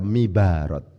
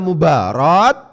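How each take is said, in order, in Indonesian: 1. Vokal pertama adalah bunyi i. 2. Vokal pertama adalah bunyi u. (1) "Kenapa kok tidak dibaca mibarat?" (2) "Ini dibaca mubarat"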